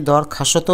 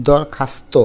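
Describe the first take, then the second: First: দরখাস্ত with a vowel after s, "khashoto"; uncompressed cluster. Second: দরখাস্ত with s straight onto t, "khasto"; no vowel between s and t in দরখাস্ত; joined cluster. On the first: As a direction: break the st in দরখাস্ত with an o. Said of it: "চাপ পড়ে নাই". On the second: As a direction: say দরখাস্ত as dawr-khas-to. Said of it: "হয়েছে নাকি". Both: Shown as a demonstration.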